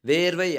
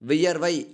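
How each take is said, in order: First: The word is said in its shortened colloquial form. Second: The word is said in its full formal form. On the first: This is the everyday spoken form. "பேச்சு வழக்கு" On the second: This is the pure literary form. "தூய தமிழ் சொல்"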